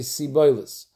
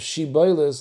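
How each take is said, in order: First: The word begins with an s sound. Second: The word begins with an sh sound. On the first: The speaker calls it wrong. "they don't know how to be mechalag between a shin and a siyan" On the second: The speaker calls it right. "Instead of Shiboilis"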